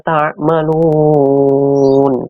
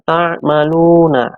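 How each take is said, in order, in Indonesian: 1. Kata itu berakhir pada n tanpa vokal. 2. Kata itu berakhir dengan vokal setelah n.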